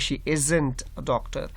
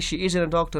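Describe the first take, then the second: First: The T is pronounced strongly and clearly. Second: The T is light and barely heard. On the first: The speaker calls it wrong. "So you don't have to say" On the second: The speaker calls it right. "remember that T is a here silent T"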